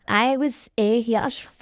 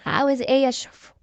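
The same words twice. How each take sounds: First: Changed voice. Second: A touch of cool impatience; cold. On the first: Woman answering her ex-husband's call, in a changed voice. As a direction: draw the question out in a slightly different voice. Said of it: "رديت بصوت متغير". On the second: Woman answering her ex-husband's call, mildly cold. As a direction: answer him coolly, keeping it brisk. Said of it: "رديت ببرود". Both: A narrator's reading.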